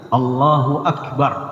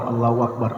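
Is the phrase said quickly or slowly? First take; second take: slowly; quickly. First: The phrase is said slowly and calmly. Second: The phrase is said quickly and hurriedly.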